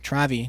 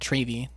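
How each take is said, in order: First: The name does not rhyme with gravy. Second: The name rhymes with gravy. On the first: The speaker calls it right. "Travi, not Travy" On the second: The speaker calls it wrong. "if you replace the T with a G, it'd be gravy"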